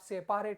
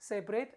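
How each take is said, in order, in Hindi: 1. बीच के अक्षर में पूरा, साफ़ 'a' स्वर है। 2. बीच का स्वर कमज़ोर है और मुश्किल से सुनाई देता है। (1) "बट आप सेपारेट मत पढ़िएगा" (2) "इट्स अ सेपरेट"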